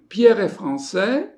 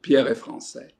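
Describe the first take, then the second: First: The voice rises at the end. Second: The voice falls at the end. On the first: It asks a question. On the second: It states a fact.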